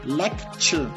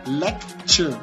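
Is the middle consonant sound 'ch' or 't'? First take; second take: ch; ch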